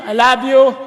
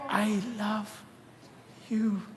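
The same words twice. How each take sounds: First: It is said insincerely, without real feeling. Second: It is said sincerely, with real feeling.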